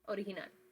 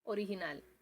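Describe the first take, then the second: Both takes have the same delivery.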